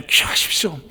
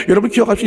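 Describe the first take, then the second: First: 기억하십시오 breathed as a whisper; whispered reminder. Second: 기억하십시오 called out louder, every syllable pressed; a booming charge to the congregation; loud call to remember. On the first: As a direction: lean in and whisper it. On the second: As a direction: command them to remember, loudly. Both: Shown as a demonstration.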